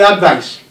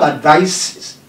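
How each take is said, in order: First: The stress falls on the first syllable. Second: The stress falls on the second syllable. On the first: The speaker calls it wrong. "some people say advice. So, if you check your dictionary, there is nothing like advice" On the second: The speaker calls it right. "But we have advice ... you see the stress is before V"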